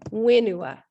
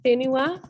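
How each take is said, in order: First: The word begins with a plain w sound. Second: The word begins with a breathy h-like sound. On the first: This is how someone from Taranaki says it. "he would say wenua. So he drops the H" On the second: This is the speaker's own northern way of saying it. "instead of saying whenua for land"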